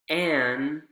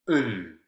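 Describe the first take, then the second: First: The word has its full vowel. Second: The vowel is reduced to a schwa.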